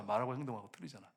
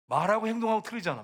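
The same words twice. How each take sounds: First: Soft, low-pitched repeat of the reproach; subdued echo. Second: Loud, high-pitched preaching accusation; emphatic reproach. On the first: Preacher repeating the charge to churchgoers, quiet and low. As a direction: drop the voice as an afterthought. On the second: Preacher calling out hypocrisy in church, loud and emphatic. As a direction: drive the charge home, voice raised. Preacher hammers point, then echoes it. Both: Real, not acted.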